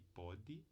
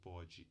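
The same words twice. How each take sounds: First: The consonant is a plain d stop. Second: The consonant is a j-like affricate.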